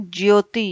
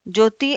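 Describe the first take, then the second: First: ज्योति as "jyoti"; correct form with y. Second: ज्योति as "joti"; wrong form without y. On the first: Teacher corrects ज्योति, said "jyoti". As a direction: clear y after j in ज्योति. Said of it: "य का प्रयोग". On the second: Teacher shows wrong ज्योति, said "joti". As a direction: drop the y from ज्योति. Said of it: "ज्योति अशुद्ध शब्द है". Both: Shown as a demonstration.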